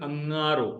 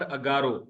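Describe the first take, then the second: First: The middle consonant is a nasal sound through the nose. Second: The middle consonant is a plain g without nasality. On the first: The speaker calls it right. "नाक से आवाज निकालेंगे" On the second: The speaker calls it wrong. "This is not अगारो"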